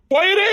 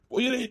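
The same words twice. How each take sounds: First: Much higher, rising command to go; sharp plea. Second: Much softer, almost breathed away; soft send-off. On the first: Girl cries out to the boy to go away. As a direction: push him away with a cry. Sending him away, repeated. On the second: Girl softly tells the boy to go away. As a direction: let it die on the lips. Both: Acted.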